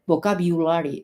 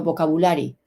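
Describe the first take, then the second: First: "vocabulary" with biu in the middle; corrected pronunciation. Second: "vocabulary" with plain bu in the middle; mispronounced vocabulary. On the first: Teacher showing learners the closer sound, corrected pronunciation. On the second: Teacher showing learners what to avoid, mispronounced vocabulary. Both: Shown as a demonstration. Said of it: "no vocabulary".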